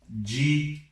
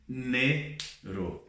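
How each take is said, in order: First: The d is said the Brazilian Portuguese way. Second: The d is said the Spanish way. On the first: The speaker calls it wrong. "Não é dinheiro" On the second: The speaker calls it right. "é dinheiro"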